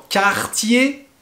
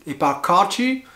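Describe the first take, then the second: First: "Cartier" said the French way, like quartier; correct Cartier. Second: "Cartier" said wrongly with an English flavour. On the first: Teacher correcting learners with the French "Cartier". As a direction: model the right "Cartier". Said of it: "Non, Cartier". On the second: Teacher showing learners a wrong "Cartier". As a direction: contrast "Cartier" with a wrong foreign version. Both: Shown as a demonstration.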